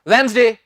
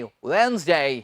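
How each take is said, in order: First: The final 'day' is cut off abruptly. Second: The final 'day' is lengthened and finished fully. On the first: The speaker calls it wrong. "एकदम से मत कहना Wednesday नहीं" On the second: The speaker calls it right. "So डे को क्या कहना है, डे"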